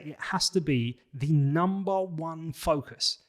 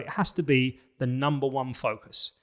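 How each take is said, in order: First: It is said with strong emotional conviction. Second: It has emphasis but no emotion.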